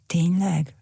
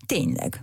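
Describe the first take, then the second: First: Amazed little question. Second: Dry curt comeback; curt retort. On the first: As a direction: marvel at the news like a child. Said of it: "ámult el Rókamuk". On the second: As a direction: shut the topic down curtly. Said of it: "vágta oda Cirmacs". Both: A narrator's reading.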